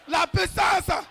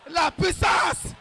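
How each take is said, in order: Both takes have the same delivery.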